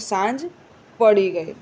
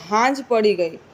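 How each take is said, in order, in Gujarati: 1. પહેલો શબ્દ s અવાજથી શરૂ થાય છે. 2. પહેલો શબ્દ h અવાજથી શરૂ થાય છે. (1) "શુદ્ધ વાક્ય લખીએ કે" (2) "સ્થાનિક ભાષામાં બીજું છે કે સ ને બદલે હ હોય તેવું"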